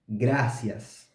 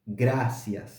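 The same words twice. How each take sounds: First: The r is a trilled Spanish r. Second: The same.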